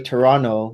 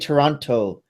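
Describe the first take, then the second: First: The second T is replaced by an N sound. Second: The second T is clearly pronounced as T. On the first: This is how locals say it. "you say Toronto with an N" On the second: This is how outsiders say it. "you don't actually say Toronto"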